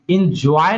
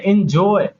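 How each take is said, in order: First: "एंजॉय" said as "in-joy-ay", with a short I at the start and a broad diphthong; mispronounced enjoy. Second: Said in the usual way. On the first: Shown as a demonstration. Teacher showing what not to say, "एंजॉय" mispronounced with a broad ending. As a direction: say "एंजॉय" wrongly, opening with "in" and widening the ending. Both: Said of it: "एंजॉय नहीं बोलते हैं".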